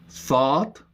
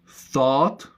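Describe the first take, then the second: Both takes have the same delivery.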